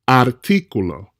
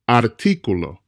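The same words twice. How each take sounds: First: The stress is on the second syllable. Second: The stress is on the second syllable.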